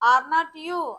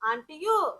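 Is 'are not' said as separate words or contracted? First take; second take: separate; contracted. First: Are and not are said as two words. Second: Are and not are joined into one word.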